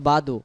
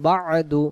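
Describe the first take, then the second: First: No throaty consonant is heard before the 'd'. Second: A throaty consonant is heard before the 'd'. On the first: The speaker calls it wrong. "বাদু আইন অক্ষরটা বাদ গেছে।" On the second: The speaker calls it right. "আইন অক্ষর সহ আদায় করতে হলে"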